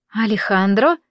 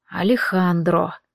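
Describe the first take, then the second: First: Алехандро asked with a rising question tune; questioning name. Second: Алехандро said slowly with a low falling tune; grim confirmation. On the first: Friends guess the same suspect, asked name with rising tune. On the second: Friend confirms the shared suspicion, slow low falling name. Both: Acted.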